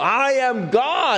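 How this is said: It is said forcefully, with conviction.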